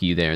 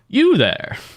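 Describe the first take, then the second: First: The voice rises like a question. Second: The voice falls, not like a question.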